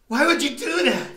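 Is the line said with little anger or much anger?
little anger. It is said with less anger.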